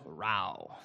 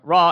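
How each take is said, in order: First: The word is said in a Southern accent. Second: The word is said in a standard accent.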